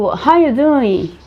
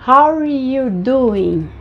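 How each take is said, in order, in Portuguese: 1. O R é omitido, deixando a vogal 'ah'. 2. O R é pronunciado e ligado ao 'you'. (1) "o R ele puxa para um som de A" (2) "vai ficar só o R e vai pular aqui"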